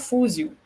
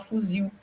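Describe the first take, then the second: First: The stress is on the first syllable. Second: The stress is on the last syllable. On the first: The speaker calls it wrong. "você não fala fuzil" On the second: The speaker calls it right. "você fala fuzil. Então, fuzil é oxítona"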